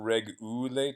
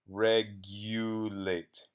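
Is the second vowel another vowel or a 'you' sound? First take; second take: another vowel; 'you' sound. First: The second vowel is not a 'you' sound. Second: The second vowel sounds like 'you'. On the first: The speaker calls it wrong. "it's not regulate" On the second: The speaker calls it right. "that U says uh, its name in the English alphabet, U"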